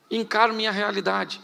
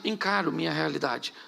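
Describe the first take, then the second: First: Said in the usual way. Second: Encaro minha realidade repeated lower and much softer; quiet echo. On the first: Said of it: "repeated phrase". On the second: Acted. Pastor echoing his own phrase, quieter. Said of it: "repeated phrase softer".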